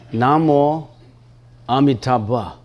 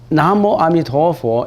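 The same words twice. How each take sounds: First: It is said with the Sanskrit pronunciation. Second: It is said with the Chinese pronunciation. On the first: "If we speak it in the Sanskrit language" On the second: "is in the Chinese language"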